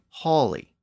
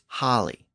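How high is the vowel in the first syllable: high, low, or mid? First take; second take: mid; low. First: The first vowel is in the middle. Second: The first vowel is at its lowest. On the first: This is the Middle English form. "Then in Middle English, it became holly" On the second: This is the Old English form. "In Old English, it was holly"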